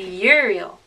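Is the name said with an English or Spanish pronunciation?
English. It is said with English vowels and sounds. The speaker calls it wrong. "An English speaker would say"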